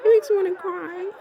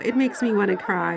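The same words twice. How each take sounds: First: High, choked laughing cry; laughing through tears. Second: Said in the usual way. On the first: Real, not acted. Vlogger overcome watching Harry footage, high teary laugh.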